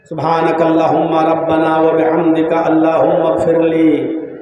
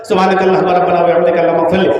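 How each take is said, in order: First: It is said slowly, like a real request. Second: It is rattled off quickly, like rote words.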